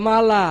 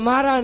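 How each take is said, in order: First: The middle consonant is an L sound. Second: The middle consonant is an R sound. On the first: The speaker calls it right. "এটা মালা।" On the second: The speaker calls it wrong. "এটা মারা না"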